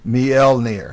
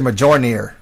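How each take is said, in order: First: The J is not sounded like an English J. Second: The J is sounded like an English J. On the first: The speaker calls it right. "but it's Mjolnir" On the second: The speaker calls it wrong. "Most people like to say Mjolnir because it's got a J in it"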